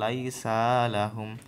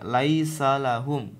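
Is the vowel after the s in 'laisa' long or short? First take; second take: long; short. First: The vowel after the s is drawn out long. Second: The vowel after the s is short. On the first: The speaker calls it wrong. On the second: The speaker calls it right. "sinnya tuh gak panjang, Bu. Langsung aja dia"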